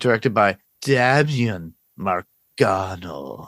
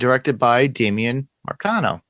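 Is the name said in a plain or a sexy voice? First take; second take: sexy; plain. First: The name is said in a sexy voice. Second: The name is said in a plain voice.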